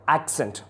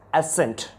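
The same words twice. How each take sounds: First: Accent with a k before the s, AK-sent; accent with a crisp k-s in the middle; British pronunciation. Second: Accent with the k dropped, ASS-ent; accent with just an s in the middle; American pronunciation. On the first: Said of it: "It is according to the British accent". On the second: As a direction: say accent as "assent". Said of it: "When it comes to the American". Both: Shown as a demonstration.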